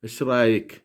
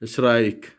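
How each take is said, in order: No difference in how they are said.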